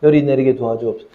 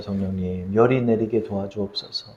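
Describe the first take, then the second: First: Said in the usual way. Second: Soft, hushed plea to God; hushed prayer. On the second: Retold or imitated. Parent praying softly by a feverish child's bed. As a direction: pray softly over a sleeping child.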